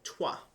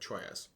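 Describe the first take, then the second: First: The name is said in its real pronunciation. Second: The name is read out as it is spelled. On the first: "a game called Trois" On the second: "but often looks like"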